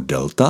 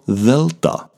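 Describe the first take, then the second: First: It is pronounced the ordinary modern way. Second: It is pronounced with a different, older sound. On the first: This is not how it was read originally. The speaker calls it wrong. "se delta nečetla jako delta" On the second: This is how it was read originally. The speaker calls it right. "ale jako delta"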